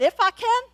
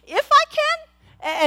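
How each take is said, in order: First: Jesus' incredulous question. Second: Drawn out, much higher, slow disbelief; slow mock-astonished echo; Jesus, incredulous. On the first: Retold or imitated. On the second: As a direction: stretch it like you can't believe he asked. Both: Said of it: "the tone of voice that he used".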